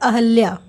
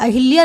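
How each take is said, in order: First: No vowel follows the 'h' sound. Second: An 'i' vowel follows the 'h' sound. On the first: The speaker calls it right. "क्या होता है" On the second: The speaker calls it wrong. "अहिल्या नहीं होता है"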